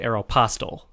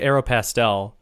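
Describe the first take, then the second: First: The ending sounds like the word apostle. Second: The ending sounds like the word pastel. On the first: "but I wouldn't say Aeropostale. Which I've heard. Like the Apostle Paul" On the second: "I always say Aeropastel because"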